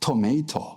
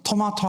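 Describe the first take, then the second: First: The middle vowel sounds like 'ay'. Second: The middle vowel sounds like 'ah'.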